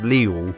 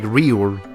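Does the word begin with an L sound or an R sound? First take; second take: L sound; R sound. First: The word begins with an L sound. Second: The word begins with an R sound. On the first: "it's pronounced Liul" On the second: "it's spelled like Riul"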